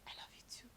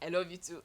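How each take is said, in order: First: It is whispered. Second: It is said in a normal voice.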